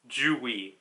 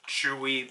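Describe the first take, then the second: First: The name begins with a j sound. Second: The name begins with a ch sound. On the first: The speaker calls it right. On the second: The speaker calls it wrong. "I was pronouncing it as in a literal like Chewy"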